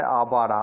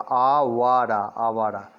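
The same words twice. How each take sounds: First: Said in the usual way. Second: "Awara" drawn out very slowly in separate syllables. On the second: Shown as a demonstration. Teacher sounds out the word Awara for learners, syllable by syllable. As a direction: stretch each syllable of "Awara".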